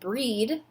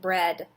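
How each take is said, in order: First: The vowel is a long E sound. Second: The vowel is a short E sound. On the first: The speaker calls it wrong. "We don't pronounce this word breed" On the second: The speaker calls it right. "we pronounce it bread"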